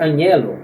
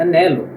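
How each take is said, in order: First: Anhelo said with a Portuguese nh; the mistaken anhelo with nh; wrong way. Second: Anelo with a plain n, no h; silent h. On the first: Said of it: "não se pronuncia anhelo". (anhelo pronunciado errado) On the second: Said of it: "mas se pronuncia anelo". (anelo com H mudo) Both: Shown as a demonstration.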